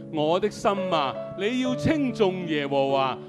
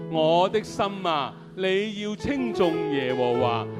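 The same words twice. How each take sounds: The two takes are said the same way.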